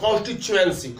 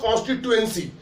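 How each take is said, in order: First: The middle consonant is a 'ch' sound. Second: The middle consonant is a plain 't' sound. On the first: This is how most people say it. "ज्यादातर इसको चा से बोलते हैं" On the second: This is the dictionary form. "अगर आप dictionary देखेंगे तो ये लिखा हुआ"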